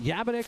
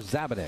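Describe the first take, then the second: First: The name begins with a Y sound. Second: The name begins with a Z sound. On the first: The speaker calls it wrong. "Is it Yabanik or Zabanik?" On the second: The speaker calls it right. "we got to say the Z"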